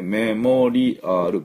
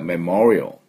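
First: The word is said with five full syllables. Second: The word is said with two syllables. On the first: The speaker calls it wrong. "メモリアル5 音節ですもんね" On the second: The speaker calls it right. "実際はメモリオ"

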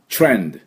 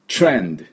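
No difference in how they are said.

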